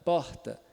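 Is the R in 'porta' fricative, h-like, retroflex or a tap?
h-like. The R is a soft breathy h sound. "é o H do inglês, do hat, hotel ... bem suave"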